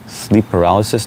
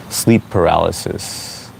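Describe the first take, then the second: First: "Sleep paralysis?" asked with a confused rising tune; puzzled question. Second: Said in the usual way. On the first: Real, not acted. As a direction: sound baffled by the answer. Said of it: "That's what you notice about someone?".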